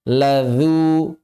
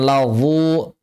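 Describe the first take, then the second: First: "Ladzu" with a light, long dz syllable; thin dhal. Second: "ladzu" with dz thickened to zha; mistaken heavy zha. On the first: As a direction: keep "dzu" thin at the tongue tip. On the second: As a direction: round and darken "dzu" in "ladzu". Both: Shown as a demonstration.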